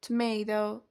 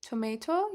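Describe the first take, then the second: First: Tomato as tuh-may-doh, last T flapped; American-style tuh-MAY-doh; native-like tomato. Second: Tomato with a crisp last T, toh-may-toh; careful toh-MAY-toh as the alternative; less native tomato. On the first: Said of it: "تلفظ کنید tomato". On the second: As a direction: pronounce Tomato with both Ts full. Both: Shown as a demonstration.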